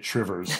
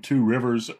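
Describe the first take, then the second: First: It is squeezed together into two syllables. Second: It is said in full as three syllables. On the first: This is how locals say the name. The speaker calls it right. "never say that, say Trivers" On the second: This is an outsider's way of saying the name. The speaker calls it wrong. "the place name Two Rivers"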